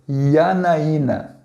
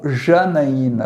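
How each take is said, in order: First: The name begins with a 'y' sound. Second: The name begins with a soft 'zh' sound. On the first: The speaker calls it right. "você vai pronunciar como Yanaína" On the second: The speaker calls it wrong. "você não vai pronunciar como Janaína"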